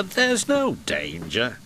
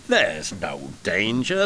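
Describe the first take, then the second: First: Slow, with "no" lifted higher; stress on no. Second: Slow defiant. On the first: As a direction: push up the word "no". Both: Acted. Thomas repeats, defiant.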